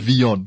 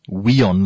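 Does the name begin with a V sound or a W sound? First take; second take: V; W. First: The name begins with a V sound. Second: The name begins with a W sound. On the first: "They like saying VEON" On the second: "they don't say WEON like you said it just now"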